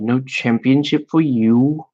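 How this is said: It is said in a put-on British accent. "I have a terrible British accent"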